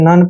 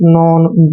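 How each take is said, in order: First: The vowel sounds like 'uh'. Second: The vowel sounds like 'aw'. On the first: The speaker calls it right. "नन पढ़ना है" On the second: The speaker calls it wrong. "ऐसे नहीं पढ़ेंगे"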